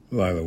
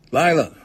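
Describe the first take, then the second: First: Said in the usual way. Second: High, loud delighted greeting; pleased exclamation, pitched up then falling; pleased surprise. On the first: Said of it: "was the name of her sister". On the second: A narrator's reading. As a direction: call the name in happy surprise. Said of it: "in a pleased, surprised voice".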